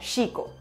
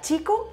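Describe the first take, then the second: First: It begins with an 'sh' sound. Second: It begins with a 'ch' sound. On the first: "se fricatiza el sonido de la ch, o sea, sh" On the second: "se pronuncia chico"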